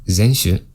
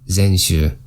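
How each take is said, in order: No difference in how they are said.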